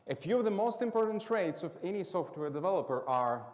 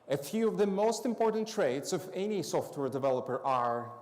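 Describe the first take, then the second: Both takes have the same delivery.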